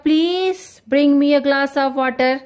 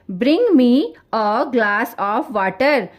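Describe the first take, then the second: First: Slow, asking nicely with please; polite request. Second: Firm order. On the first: Teacher showing students a request, polite asking. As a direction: make it a polite ask. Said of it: "request". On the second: Teacher showing students an order, firm command. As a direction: say it slowly as a plain command. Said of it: "order दिया जा रहा है". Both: Shown as a demonstration.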